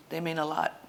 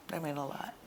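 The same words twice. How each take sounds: First: Said in the usual way. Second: Teary. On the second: Real, not acted. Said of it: "I'm getting teary too".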